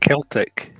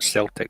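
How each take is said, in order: First: The word begins with a hard K sound. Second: The word begins with a soft S sound. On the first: The speaker calls it right. "It's the C is a K" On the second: The speaker calls it wrong. "not Celtic. Celtic's a football team"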